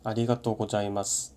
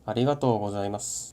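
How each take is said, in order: First: It is read flatly with Korean-style sounds. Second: It has long vowels, a z sound, and pitch accent. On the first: The speaker calls it wrong. "위에 거는 한국어 읽듯이 일본어로 읽은 거고" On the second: The speaker calls it right. "아래 거는 장음, Z 발음, 악센트까지 전부 지켜서 발음한 거예요"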